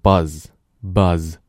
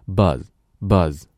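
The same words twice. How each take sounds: First: The final z is full and drawn out. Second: The final z is short and light.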